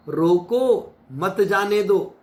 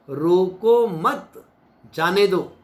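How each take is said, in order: First: रोको मत जाने दो as one unbroken phrase, slowly, falling at the end. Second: रोको मत rising and very slow, then a pause before जाने दो; split with a pause. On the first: Preacher shows listeners how tone changes meaning, one smooth phrase. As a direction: run रोको मत जाने दो together without a break. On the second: Preacher shows listeners how tone changes meaning, pause after रोको मत. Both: Shown as a demonstration. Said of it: "बोलने की tone से शब्द के अर्थ बदल जाते हैं".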